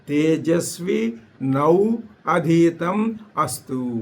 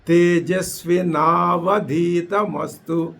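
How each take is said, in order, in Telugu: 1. పదాలు ఒక్కొక్కటిగా పలుకుతారు. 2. పదాలు కలిపి ఒకేసారి పలుకుతారు.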